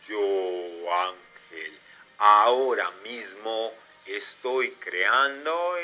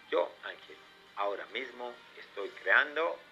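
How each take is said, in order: First: The sentence is spoken slowly. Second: The sentence is spoken at normal speed. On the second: "con tu voz normal"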